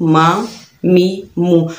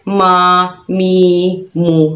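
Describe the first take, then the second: First: Each syllable is said gently and evenly. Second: Each syllable is stretched out long. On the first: The speaker calls it right. "नरमी से और आराम से" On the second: The speaker calls it wrong. "ना ही लंबा करना है"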